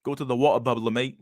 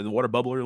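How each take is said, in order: First: Badly faked British accent. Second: Said in the usual way. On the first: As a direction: put on a mock British accent. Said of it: "I can't speak British".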